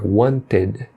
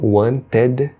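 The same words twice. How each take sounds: First: The ending is a reduced, in-between vowel sound. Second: The ending is a full, clear 'ed' sound. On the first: The speaker calls it right. "tá no meio termo, é" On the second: The speaker calls it wrong. "não é nem ed, por exemplo"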